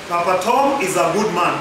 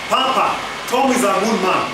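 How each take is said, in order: First: It is said with no pause after Papa. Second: It is said with a pause after Papa. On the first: Papa Tom is one person who is good. "One man, one person called Papa Tom" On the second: Papa is being told that Tom is good. "That's how you say it"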